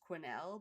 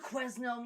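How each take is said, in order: First: The S in the name is silent. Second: The S in the name is pronounced. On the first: The speaker calls it right. "you don't pronounce the S" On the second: The speaker calls it wrong. "anybody that ever covers her is always like"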